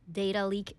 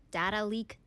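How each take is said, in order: First: "data" with a long ay, like "day"; DAY-ta pronunciation. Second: "Data" with an open a, as in "cat"; DA-ta pronunciation. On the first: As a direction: say "data" as DAY-duh before leak. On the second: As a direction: say "Data" as DADD-uh before leak. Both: Shown as a demonstration. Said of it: "약간 영국식 발음이지만 미국식 발음으로도".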